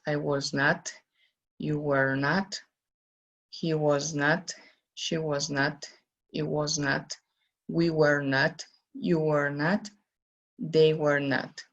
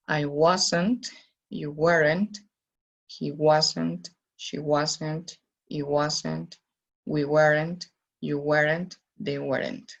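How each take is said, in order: First: Was not and were not said as two separate words; full form of was not, were not. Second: Was not and were not run together as wasn't, weren't; contracted wasn't, weren't. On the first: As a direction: model "not" in full after was and were, slowly for learners. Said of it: "Si fuera con contracción, entonces la pronunciación sería". ("was not" y "were not" pronunciados completos, sin contracción)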